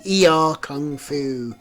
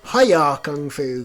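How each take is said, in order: First: The name starts with a 'yee-ar' sound. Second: The name starts with a 'hi-ya' sound. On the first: This is the game's real name. The speaker calls it right. "of course it has to be" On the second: This is a childhood mishearing of the name. The speaker calls it wrong. "what I called it as a kid"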